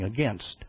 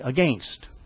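First: It is said in the speaker's usual pronunciation. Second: It is said the way Canadians pronounce it. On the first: "when we knew they should be saying against" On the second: "but they were saying against"

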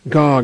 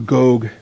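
First: The vowel is a short O sound. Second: The vowel is a long O sound.

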